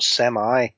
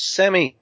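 First: It is said with a non-British pronunciation. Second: It is said with the British pronunciation. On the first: The speaker calls it wrong. "not semi" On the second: The speaker calls it right. "You're British. It's semi"

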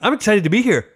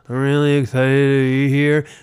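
First: It is said with real enthusiasm. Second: It is said flatly, without enthusiasm.

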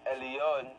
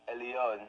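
No difference in how they are said.

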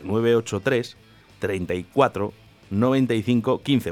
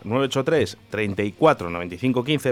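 First: The number is said more slowly. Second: The number is said at normal speed.

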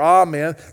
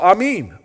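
First: It is said with a usual English pronunciation. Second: It is said with a Ukrainian-style pronunciation. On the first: "instead of saying amen or amen" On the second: "they go amen, amen"

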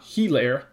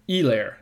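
First: The H is clearly pronounced at the start. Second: The H is silent and begins like an E. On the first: The speaker calls it wrong. "not Helaire" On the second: The speaker calls it right. "That's right, Helaire ... That H is somewhat silent and sounds like an E"

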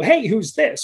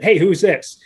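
First: The voice rises at the end. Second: The voice falls at the end.

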